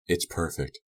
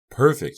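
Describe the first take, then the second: First: Said in the usual way. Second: Perfect high and loud, thrilled; gleeful cry of Perfect. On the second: A narrator's reading. Mandy to her captive, gleefully shrieking Perfect. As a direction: clap and squeal it out. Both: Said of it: "clapping her hands".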